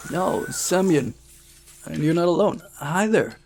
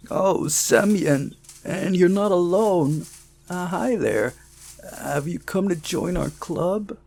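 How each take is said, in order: First: A first rough attempt at the character; first try at Semyon's friend's voice. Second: Higher, louder, slower retake of the voice; a second, fuller take on the character; redone boy's voice. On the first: Narrator's first go at the club boy's voice. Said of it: "did I butcher his voice?". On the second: Narrator redoes the club boy greeting Semyon. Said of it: "Hang on, sorry". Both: Shown as a demonstration.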